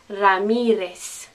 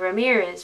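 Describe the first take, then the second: First: It is said with a Spanish accent. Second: It is said with an English accent. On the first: The speaker calls it right. "with the correct Spanish pronunciation" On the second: The speaker calls it wrong. "We've anglicized them"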